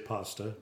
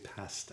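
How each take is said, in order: First: Pasta is said with an American pronunciation. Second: Pasta is said with a non-American pronunciation. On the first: "Americans say pasta" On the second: "We say pasta"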